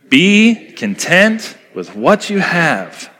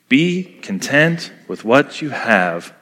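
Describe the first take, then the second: First: The line is said with louder, forceful energy. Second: The line is said in a plain, even voice. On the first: "Let's say it again with conviction" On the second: "Let's say it together"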